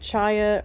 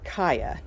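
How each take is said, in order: First: The word begins with a ch sound. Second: The word begins with a k sound. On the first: "some people are pronouncing it chaya" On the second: "or kaya"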